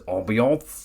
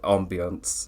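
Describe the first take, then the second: First: The word is said with an exaggerated comic pronunciation. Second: The word is said in a toned-down, in-between way. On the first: "purposely just to get a laugh, he says the word as ambiance" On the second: "That's why I say the word weirdly now, because I'm in between"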